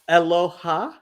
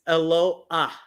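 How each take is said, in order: First: The word ends with a 'ha' syllable. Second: The a vowel comes before the final h. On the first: The speaker calls it wrong. "it's not aloha" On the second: The speaker calls it right. "it's eloah"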